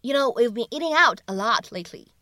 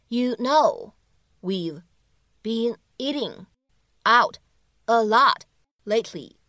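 First: Said in the usual way. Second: Slow, each word set apart by pauses. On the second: Shown as a demonstration. Teacher breaking the line down for learners, word by word. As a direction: isolate every word for learners.

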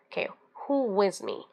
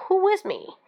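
First: Said in the usual way. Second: High, rousing leader's call; rally the followers behind you. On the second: Shown as a demonstration. Leader rousing the crowd after a speech, rallying call. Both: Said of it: "So probably just say".

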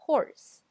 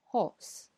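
First: American horse with a strong r; American English. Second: British horse without r; British English. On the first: Teacher shows horse in an American accent. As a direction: horse said with a clear r, American style. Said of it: "美式英语叫". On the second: Teacher shows horse in a British accent. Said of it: "英式英语呢". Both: Shown as a demonstration.

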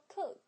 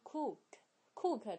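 First: Said in the usual way. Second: "cook" with a long, tense oo; "cook" mispronounced with a drawn-out oo; wrong long vowel. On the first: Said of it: "而是发呃". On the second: Shown as a demonstration. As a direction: stretch the vowel in "cook" like "kooook". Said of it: "不要说成cook".

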